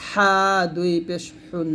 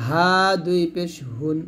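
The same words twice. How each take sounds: First: হুন begun with a strong pharyngeal h; throaty Arabic ḥa. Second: হুন begun with a light glottal h; soft Arabic ha. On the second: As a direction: say হা and হুন with a loose, open h, as Arabic ه. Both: Shown as a demonstration. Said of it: "এরকমভাবে পড়তে হবে".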